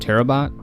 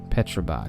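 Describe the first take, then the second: First: The initial P sound is silent. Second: The initial P sound is pronounced. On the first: "since the P would be silent there" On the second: "I think that's how you say it"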